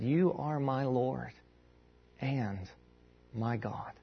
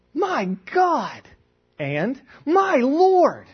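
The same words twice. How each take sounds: First: Slow, soft, low declaration of faith; solemn confession. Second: High mock shout of shock; startled exclamation. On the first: Acted. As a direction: say it softly, pausing with reverence. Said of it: "What Thomas is doing here is he's saying". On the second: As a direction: cry out as if walking in on a fight. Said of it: "And I'm startled by this".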